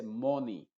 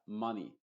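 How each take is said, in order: First: MONEY with a rounded O, as MOH-nee; MONEY with a Spanish-style O in front; mispronounced. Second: MONEY with a short, relaxed 'uh', like MUH-nee; MONEY with a barely open first vowel; correct vowel. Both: Shown as a demonstration. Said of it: "Nunca se dice money".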